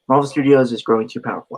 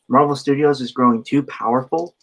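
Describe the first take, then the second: First: The voice falls at the end, like a statement. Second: The voice rises at the end, like a question. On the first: It sounds like a statement. The speaker calls it right. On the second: It sounds like a question. The speaker calls it wrong.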